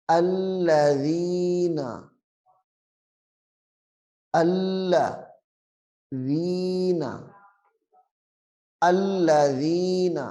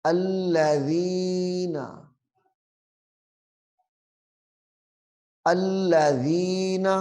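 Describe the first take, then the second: First: الذین with a short soft ن, no jerk; correct soft reading. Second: الذین with the ن dragged out long; wrong stretched reading. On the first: Teacher shows the right soft reading. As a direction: read الذین smoothly, not stretched. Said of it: "نرمی سے معروف پڑھنا ہے". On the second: Teacher shows the wrong long reading. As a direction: drag the ن in الذین. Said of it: "ایسے نہیں پڑھنا". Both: Shown as a demonstration.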